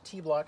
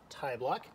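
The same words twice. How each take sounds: First: The first vowel is an 'ee' sound. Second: The first vowel is not an 'ee' sound. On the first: The speaker calls it right. "it is pronounced Tibloc, ... Think of the French word for small, petit" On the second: The speaker calls it wrong. "not Tibloc"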